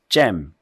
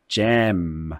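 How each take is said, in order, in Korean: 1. 모음이 짧고 끊어져요. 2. 모음이 길게 늘어져요. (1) "이렇게 하지 말고" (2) "좀 옆으로 길게 소리를 만드는 연습을 하세요"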